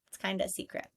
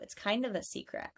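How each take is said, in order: First: The word 'of' is reduced to 'uh'. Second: The word 'of' is pronounced in full. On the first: "of turned into just an uh, just a schwa" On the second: "putting of"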